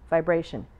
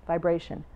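The two takes are said the same way.

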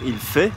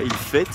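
First: The final t of fait is silent. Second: The final t of fait is pronounced. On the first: The speaker calls it right. "en français on va dire il fait" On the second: The speaker calls it wrong. "et pas il fait"

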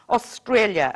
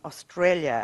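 First: It is squealed in a high, shrill voice. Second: It is said in a calmer, lower tone.

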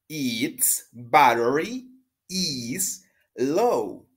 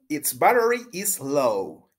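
First: The sentence is said at a slower pace. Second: The sentence is said at a faster pace.

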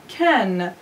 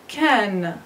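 No difference in how they are said.

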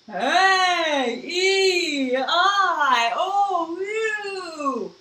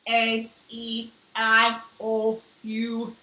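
First: It is said in a spooky ghost voice. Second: It is said in a flat robot voice.

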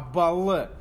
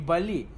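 First: The name is said the Turkish way, like 'bal'. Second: The name ends with a clear 'i' vowel. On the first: The speaker calls it right. "с турецким произношением, как будто мед" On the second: The speaker calls it wrong. "табак называется не Бали"

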